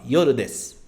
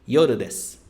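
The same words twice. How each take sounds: First: The final u is dropped, ending in s. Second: The final u is dropped, ending in s.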